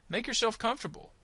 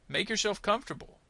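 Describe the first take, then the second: The two takes are said the same way.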